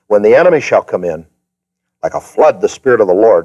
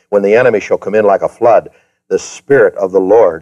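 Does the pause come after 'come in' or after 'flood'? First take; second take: come in; flood. First: The pause comes after the words come in. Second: The pause comes after the word flood. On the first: The Spirit of the Lord comes like a flood. "I moved the comma back three words, and I read it like this" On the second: The enemy comes in like a flood. "You know where the comma is after flood?"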